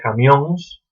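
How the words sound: It ends in a nasal -óns.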